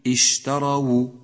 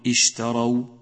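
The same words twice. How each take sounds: First: The waw carries a short u vowel. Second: The waw is silent, without a vowel. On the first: The speaker calls it right. "الواو مضمومة وليست ساكنة" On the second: The speaker calls it wrong. "فلا تقل اشتروا"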